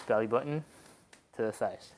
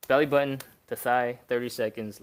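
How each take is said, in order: First: Said in the usual way. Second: Belly button punched out loud and energetic; rally the viewer into the hold; loud coaching cue. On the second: Shown as a demonstration. Coach kicking off the first hold, loud and punchy. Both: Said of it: "Let's go".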